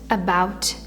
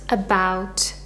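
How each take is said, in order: Both takes have the same delivery.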